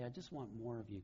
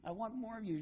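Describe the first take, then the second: First: Lower, soft, earnest plea; hushed heartfelt prayer; sincere prayer. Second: High, gushing puppy love; mock-gushing daughter, pitched up high. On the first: Acted. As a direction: say it quietly to God, meaning it. Same words as a prayer to God. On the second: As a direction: squeal it like a kid smitten with her dog. Girls gushing over the dog.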